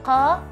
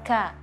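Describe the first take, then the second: First: The consonant is made far back in the throat. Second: The consonant is a front k with air released. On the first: The speaker calls it wrong. "bukan qa" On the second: The speaker calls it right. "dia ka"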